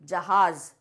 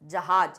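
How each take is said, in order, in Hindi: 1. यह z ध्वनि से खत्म होता है। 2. यह j ध्वनि से खत्म होता है। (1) "लेकिन क्या होता है ... ज निकलता है" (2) "अब यहाँ लिखा है जहाज"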